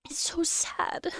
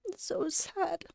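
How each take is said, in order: First: Whispered, slow and broken; real tearful whisper. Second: Soft, tight, near tears; real quiet grief; choked-up sadness. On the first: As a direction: barely get it out through tears. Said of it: "I'm getting emotional now". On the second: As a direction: let it catch in the throat. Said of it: "I cried at the conference too". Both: Real, not acted.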